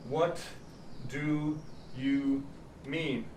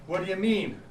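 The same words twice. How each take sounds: First: Each word is said fully and separately. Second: The middle words blur together with weak vowels. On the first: "It looks like we are saying" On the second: "when we're speaking quickly, this becomes three schwas"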